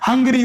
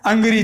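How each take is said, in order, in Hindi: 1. इस शब्द की शुरुआत में 'h' की ध्वनि है। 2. इस शब्द की शुरुआत में 'h' की ध्वनि नहीं है। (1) "एच साइलेंट नहीं हो रहा" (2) "एच को साइलेंट तो कर देंगे तो क्या होगा? फिर अंग्री हो जाएगा"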